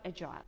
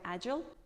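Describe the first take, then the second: First: It is said in a British accent. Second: It is said in an American accent.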